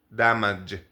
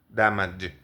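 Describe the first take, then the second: The two takes are said the same way.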